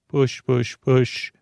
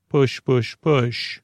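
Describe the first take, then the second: No difference in how they are said.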